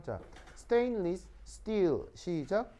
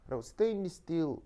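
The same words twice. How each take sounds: First: 스테인리스 스틸 slow, every syllable spelled out; careful full pronunciation. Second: Said in the usual way. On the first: Shown as a demonstration. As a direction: draw out 스테인리스 스틸 with full consonants. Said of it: "우리의 우월함 한번 느껴봅시다". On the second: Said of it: "우리 한번 해볼까요?".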